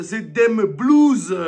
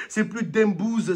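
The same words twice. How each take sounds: First: "Dem Blues" stretched slow and loud; slow punched pun. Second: Said in the usual way. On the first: Shown as a demonstration. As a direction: lean hard on "Dem Blues", slowly. ("Dem Blues" appuyé, lent et fort)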